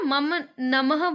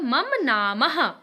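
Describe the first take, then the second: First: The second word has a short first vowel. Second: The second word has a long first vowel. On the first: The speaker calls it wrong. "आपने ना मम नमः बोला ना" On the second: The speaker calls it right. "नमः की जगह क्या होता है"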